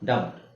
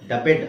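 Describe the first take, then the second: First: The ending is a plain d sound. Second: The ending is said as an extra syllable. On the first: The speaker calls it right. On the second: The speaker calls it wrong.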